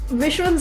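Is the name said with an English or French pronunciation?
English. The name is said the plain English way.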